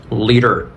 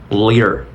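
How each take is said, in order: Both takes have the same delivery.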